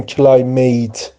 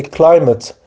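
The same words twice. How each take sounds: First: کلایمیت with a full long "ay" in the last syllable, like "mate"; wrong pronunciation. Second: کلایمت with a short, unstressed "mit" ending; correct pronunciation. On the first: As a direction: say کلایمیت as "klai-MAYT", both syllables full. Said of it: "نگیم". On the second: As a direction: say کلایمت as "KLAI-mit", first syllable stressed. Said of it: "تلفظ درستش چیه؟". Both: Shown as a demonstration.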